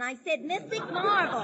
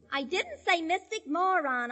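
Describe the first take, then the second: First: "marvel" punched as the correction; stress on marvel. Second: "moron" set apart, slowly and deliberately; slow down and pick out "moron"; stress on moron. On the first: Correcting Pete on the phone, "marvel" firmly stressed. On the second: Correcting Pete on the phone, "moron" slowly stressed. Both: Shown as a demonstration.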